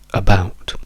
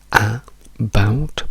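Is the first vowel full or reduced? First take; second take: reduced; full. First: The first vowel is a weak, reduced schwa. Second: The first vowel is a full, strong A. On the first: The speaker calls it right. "trasformiamo questa A in una semplice schwa" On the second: The speaker calls it wrong. "questo A sarebbe un suono pieno, un suono forte"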